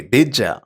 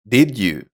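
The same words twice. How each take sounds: First: "Did ya" blended as DID-juh; connected speech. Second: Said in the usual way. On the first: Shown as a demonstration. Teacher shows natives blending words, linked "Did ya". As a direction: run "Did ya" together with a j sound. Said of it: "Native speakers often blend their words together". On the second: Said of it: "Or instead of".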